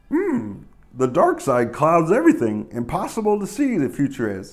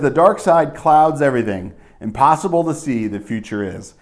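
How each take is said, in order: First: It is said in an imitation of Yoda's voice. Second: It is said in the speaker's normal voice.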